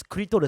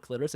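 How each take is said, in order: First: Clitoris said as kuritorisu, vowels added; Japanese-style clitoris, tapped r for the l; Japanese pronunciation. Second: Said in the usual way. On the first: Shown as a demonstration. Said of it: "it's actually just the Japanese pronunciation". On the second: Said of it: "Japanese pronunciation of the word".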